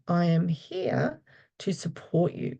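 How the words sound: It sounds warm and comforting. The listener feels cared for. The speaker calls it right. "It's quite uh, comforting for people"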